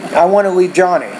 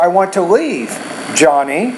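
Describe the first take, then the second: First: Johnny flows on as the sentence's object. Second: Johnny is set apart as a direct address. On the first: The speaker is talking about Johnny. "the first one I would say" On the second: The speaker is talking to Johnny. "you're speaking directly to Johnny"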